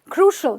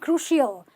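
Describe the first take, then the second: First: The ending sounds like a short 'ul'. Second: The ending sounds like 'ill'. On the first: The speaker calls it right. "They're just ul" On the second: The speaker calls it wrong. "not crucial"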